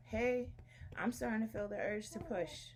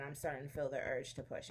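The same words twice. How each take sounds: First: Higher-pitched quoted announcement; telling the midwife. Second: Said in the usual way. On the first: Retold or imitated. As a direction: re-enact alerting the midwife. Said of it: "So I'm telling the midwife".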